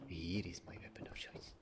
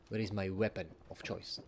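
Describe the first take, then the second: First: Low, very soft whisper; whispered reveal. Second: Said in the usual way. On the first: Pretend. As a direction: drop into a hushed whisper to answer yourself. Hushed answer to own question.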